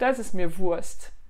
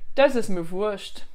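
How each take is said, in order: First: Wurst ends with a plain 'st' sound. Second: Wurst ends with a 'scht' sound. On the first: This is how people speak in northern Germany. "Dans le nord ils vont plutôt dire" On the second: This is how people speak in southern Germany. "en dialecte où on prononce le st à la fin plus comme cht"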